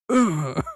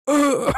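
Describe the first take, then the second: First: A lighter dying grunt; death rattle. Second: Sharp high strangled groan; a dying gasp, hammed up; death rattle. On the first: Pretend. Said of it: "that's my death rattle". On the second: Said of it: "I make that sound. Like, go".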